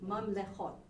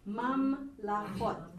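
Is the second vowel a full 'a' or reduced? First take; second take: reduced; full. First: The second vowel is reduced to a short 'e'. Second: The second vowel is a full 'a' sound. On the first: It is the linked form meaning kingdoms of. "this will be reduced to a shva. This becomes mam lechot" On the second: It is the plain form meaning kingdoms. "this one is the absolute form of the word"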